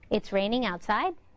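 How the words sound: The voice rises at the end. The statement sounds like a question.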